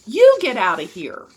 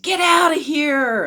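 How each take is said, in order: First: Loud retort, stress on YOU; forceful comeback at a heckler; angry yell back. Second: High, loud, drawn-out jeer; hostile, slow holler; heckler's shout. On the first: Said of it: "He whirled around and yelled". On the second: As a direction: shout to drive someone off. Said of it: "another heckler shouted". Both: A narrator's reading.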